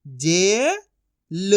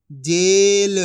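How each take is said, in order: First: जे rising long, pause, ल; syllable by syllable. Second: Said in the usual way. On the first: Shown as a demonstration. Teacher sounding out for learners, syllable by syllable. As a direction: split जेल into two drawn-out sounds. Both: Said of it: "एक एक अक्षर का उच्चारण".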